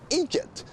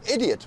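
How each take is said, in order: First: It is said with a local Belfast pronunciation. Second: It is said with a standard English pronunciation.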